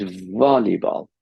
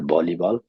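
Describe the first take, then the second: First: "volleyball" slowly, with a held v; correct v sound. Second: "volleyball" said as "bolleyball"; wrong b sound. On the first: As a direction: draw out the v at the start of "volleyball". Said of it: "It's volleyball". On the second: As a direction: start "volleyball" with a b instead of a v. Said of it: "That's not volleyball". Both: Shown as a demonstration.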